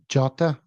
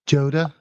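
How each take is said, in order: First: The name is said without an American pronunciation. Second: The name is said with an American pronunciation.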